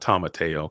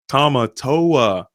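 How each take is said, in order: First: The name ends with an 'ay-oh' sound. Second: The name ends with an 'oh-ah' sound. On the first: The speaker calls it wrong. "Not Tamateo" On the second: The speaker calls it right. "There we go"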